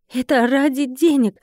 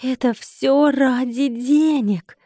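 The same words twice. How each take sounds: First: Drawled. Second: Very slow, stretched incredulous question; drawn-out dismay. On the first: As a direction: draw it out despondently. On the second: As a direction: wail it slowly in mild despair. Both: A narrator's reading. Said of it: "протянула я".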